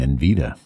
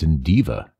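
First: The second syllable starts with a 'v' sound. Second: The second syllable starts with a 'd' sound. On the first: The speaker calls it wrong. "I might have been saying Invita" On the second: The speaker calls it right. "but it's Indiva"

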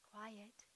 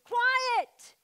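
First: It is said calmly and softly. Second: It is said forcefully and loudly.

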